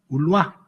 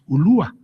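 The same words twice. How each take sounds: First: The stress is on the last syllable. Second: The stress is on the second-to-last syllable. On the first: This is how the old documents have it. "con el acento puesto en la última A" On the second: This is the usual modern pronunciation. "nosotros siempre decimos Ulúa"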